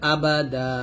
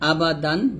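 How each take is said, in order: First: The word ends with a lengthened a vowel. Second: The word ends with a final n sound. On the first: The reading stops at this word. "যদি আমরা এখানে থামি তাহলে বলতে হবে আবাদা" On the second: The reading continues past this word. "দাল দুই জবর দান"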